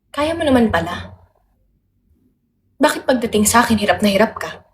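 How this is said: It is said in a mildly disappointed tone. The speaker feels let down by the listener. "disappointed lang"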